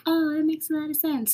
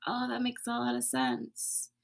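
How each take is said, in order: First: High, quick, sing-song mock kindness; mock sweet. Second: Softer, gentle, sincere; soft realization. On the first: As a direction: parody an overly sugary reassurance. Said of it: "They're not always, like, gentle and loving". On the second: Retold or imitated. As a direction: let it land as a quiet inner realization. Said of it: "They're just like".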